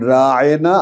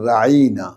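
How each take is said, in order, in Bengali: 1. শব্দটি অতিরিক্ত চাপ দিয়ে বলা হয়। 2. শব্দটি সহজভাবে, চাপ ছাড়া বলা হয়। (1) "রা'ইনা একটু চাপ দিয়ে কি হয়, হে আমাদের রাখাল" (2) "রা'ইনা মানে আমাদের দিকে একটু তাকান"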